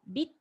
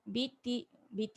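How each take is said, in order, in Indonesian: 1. Kata ini berakhir tajam pada bunyi t. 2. Ada vokal i tambahan setelah bunyi t. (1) "sebut terus huruf ta baris sabdu tu" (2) "jangan baca biti biti salah"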